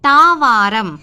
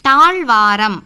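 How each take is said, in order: First: There is no 'zh' sound before the 'v'. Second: A 'zh' sound comes before the 'v'. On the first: This is the everyday spoken form. The speaker calls it wrong. "பேச்சு வழக்கு" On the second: This is the standard written form. The speaker calls it right. "இப்படி சொல்லணும்"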